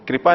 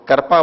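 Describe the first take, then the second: First: The first syllable has a clear ri vowel. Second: The first syllable sounds like kar or kra. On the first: "वो कृपा नहीं बोलते" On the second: "वो कृपा बोलते हैं"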